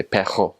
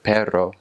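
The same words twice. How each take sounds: First: Pejo with a guttural throaty J in place of the rolled R; pejo, rr turned into a rasping back-of-throat sound; mountain dialect R. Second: Said in the usual way. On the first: Shown as a demonstration. Showing viewers the Puerto Rican mountain dialect, pejo with a guttural R. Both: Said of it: "instead of perro, they'll say pejo".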